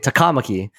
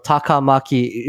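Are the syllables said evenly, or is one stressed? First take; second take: stressed; even. First: One syllable, likely the second, is stressed. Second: All syllables are flat, with no stress. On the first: "They would emphasize that sec-" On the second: "it would be said mono monotone without s- uh, emphasis"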